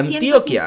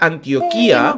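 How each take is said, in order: First: The i before the final a is unstressed. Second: The i before the final a is stressed. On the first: "el juez ... me dijo que se pronuncia Antioquia" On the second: "me pone la tilde en la I, ¿no? Entonces sería Antioquía"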